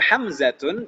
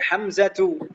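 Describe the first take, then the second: First: The word ends with an n sound. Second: The word ends with a vowel. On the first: The speaker calls it wrong. "bukan hamzatun" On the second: The speaker calls it right. "tapi hamzatu"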